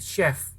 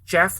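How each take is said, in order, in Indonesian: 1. Kata ini diawali dengan bunyi s yang lembut. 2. Kata ini diawali dengan bunyi ch yang keras. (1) "tapi chef. Itu C-nya dibaca S" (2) "bukan chef"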